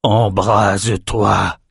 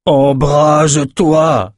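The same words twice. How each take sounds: First: Slow, drawn-out "Embrase-toi" at normal volume; straining command. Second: Loud, high, very drawn-out cry; shouted command. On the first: Nathan orders the candle to light, slow intense command on "Embrase-toi". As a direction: stretch "Embrase-toi" like a held-back incantation. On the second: Nathan retries the failed spell on the candle, long loud shout. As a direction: cry out the spell, stretching every syllable. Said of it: "cria Nathan". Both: A narrator's reading.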